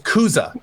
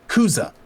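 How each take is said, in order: First: The word ends with a sharp, snapped finish. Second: The word ends with a flat, soft finish. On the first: The speaker calls it right. "you need to put a bit more of a whip on the end of it" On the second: The speaker calls it wrong. "not Kuza"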